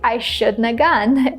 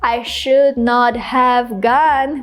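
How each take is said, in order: First: The negative is contracted into one word. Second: Each word is said fully and separately. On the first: "we can just say I shouldn't have gone" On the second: "instead of saying I should not have gone"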